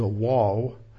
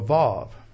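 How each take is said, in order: First: The word begins with a W sound. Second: The word begins with a V sound. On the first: "pronounce it like as a" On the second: "instead of a Vav"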